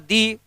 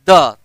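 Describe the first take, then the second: First: The word ends in a long 'ee' vowel. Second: The word ends in a short 'uh' vowel. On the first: It comes before a vowel sound. "पहला मैंने क्या बोला दी" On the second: It comes before a consonant sound. "दूसरा मैंने क्या बोला द"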